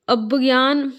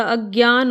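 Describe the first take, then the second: First: अज्ञान said as "abgyaan", b before gy; mispronunciation demo. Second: अज्ञान said as "agyaan", straight into gy; correct pronunciation. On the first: Teacher reading out the mistake, अज्ञान as "abgyaan". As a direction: slip a b into अज्ञान. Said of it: "अज्ञान नहीं होता". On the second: Teacher correcting students, अज्ञान as "agyaan". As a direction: say अज्ञान with no b, just "ag-gyaan". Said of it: "अज्ञान होता है". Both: Shown as a demonstration.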